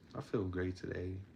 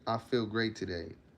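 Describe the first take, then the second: First: It is said flatly, with little energy. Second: It is said with lively, vigorous energy.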